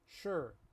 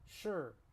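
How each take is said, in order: First: It is said with relaxed, barely moving lips. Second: The same.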